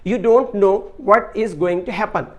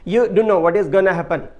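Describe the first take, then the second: First: Every word is said in its full form. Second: Several words are reduced and run together. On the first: This is standard language. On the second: This is non-standard, informal language.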